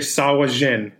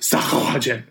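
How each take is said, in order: First: It is said without a throaty, guttural sound. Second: It is said with a throaty, guttural sound. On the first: "we're going to go with the first one" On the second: "there's a lot more phlegm in that second one"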